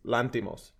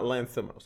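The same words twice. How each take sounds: First: The middle consonant is a plain t sound. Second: The middle consonant is a th sound. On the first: The speaker calls it right. "the H is not pronounced. It's Lanthimos" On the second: The speaker calls it wrong. "It's not Lanthimos"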